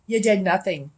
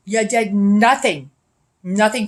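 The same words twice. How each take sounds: First: Said in the usual way. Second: Slower and louder, leaning on "nothing"; louder accusation. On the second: Real, not acted. Accusing the police of doing nothing, repeated in a louder, slower voice. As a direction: drag out "nothing" and hit it hard.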